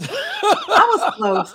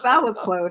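First: Slow, high, laughing; laughing admission. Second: Said in the usual way. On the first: Real, not acted. Host owning her word slip, laughing. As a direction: admit it through laughter. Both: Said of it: "She said the escargot".

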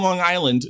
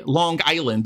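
First: Said in the usual way. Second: "Long Island" with a K sound on the G; Long Island accent. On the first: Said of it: "don't say Long Island". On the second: Shown as a demonstration. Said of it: "a K sound on the G".

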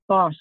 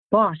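First: Flat bored drone; droned. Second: Breathless rasp, winded. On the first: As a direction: drone it without interest. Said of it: "Fergus droned". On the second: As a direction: rasp it out through aching ribs. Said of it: "he rasped, holding his quaking ribs". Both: A narrator's reading.

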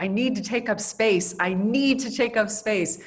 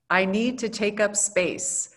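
First: Animated quote, leaning hard on NEED; insistent retelling of an animated declaration, stressing NEED. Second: Said in the usual way. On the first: Retold or imitated. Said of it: "she's very animated". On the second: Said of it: "A O C's quote".

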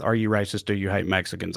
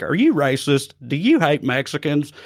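First: Low quiet quote. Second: Over eager infomercial. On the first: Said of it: "an odd choice to open with". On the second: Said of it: "that's the way he delivers that". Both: Retold or imitated.

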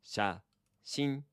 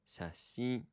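First: Slow pronunciation. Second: Said in the usual way. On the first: Shown as a demonstration. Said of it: "slowly, if you would".

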